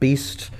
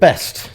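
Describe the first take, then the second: First: The name rhymes with 'feast', a long vowel. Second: The name rhymes with 'rest', a short vowel. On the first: "or sometimes Beast" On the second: "they pronounced it Best"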